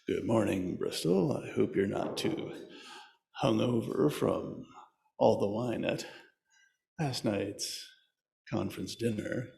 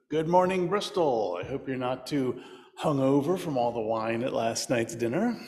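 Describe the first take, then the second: First: It is said in a smooth late-night DJ voice. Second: It is said in his normal speaking voice.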